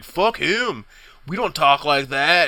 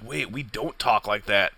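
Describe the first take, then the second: First: Dismissive jeer, "Fuck" pitched up; mocking sneer. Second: Softer, confused repeat of "we don't talk like that"; stunned realization. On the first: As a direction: sneer it like a bully in line. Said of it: "you just hear some assholes like". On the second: Retold or imitated. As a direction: let it dawn on you quietly. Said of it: "And you're just like".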